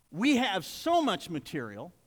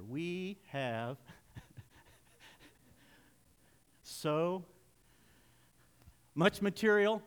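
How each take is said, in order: First: Said in the usual way. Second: Drawn-out words with long pauses between; reading slow. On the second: Shown as a demonstration. Preacher giving Robbie time to get up here, reading very slowly. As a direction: stretch each word and wait, stalling playfully. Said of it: "I'll read slow".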